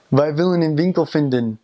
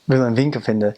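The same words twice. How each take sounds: First: Willen and vinden with every final N sounded; higher, careful willen and vinden ending in clear N; beginner's full N endings. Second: Willen and vinden ending in "uh", no N; native-style "wille" and "vinde" for willen and vinden; dropped N endings. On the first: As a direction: pronounce the N closing willen and vinden. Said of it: "you won't have dropped those yet". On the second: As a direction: let the final N fall off willen and vinden. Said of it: "as opposed to". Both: Shown as a demonstration.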